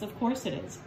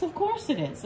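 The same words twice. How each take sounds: First: "Of course it is" said low and softer, flat and knowing; low, quieter, resigned "Of course it is"; low dry take. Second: "Of course it is" said much higher, bright and mocking; high-pitched sarcastic "Of course it is"; high sarcastic take. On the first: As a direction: drop "Of course it is" into a deadpan mutter. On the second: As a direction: toss off "Of course it is" up high in mock surprise. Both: Shown as a demonstration.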